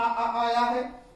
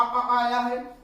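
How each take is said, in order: First: Very slow, long drawn-out आ in आया; slow vowel demo. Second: Said in the usual way. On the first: Shown as a demonstration. Teacher drawing out the vowel, very slow. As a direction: stretch the आ so students hear it. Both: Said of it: "इसमें भी आ".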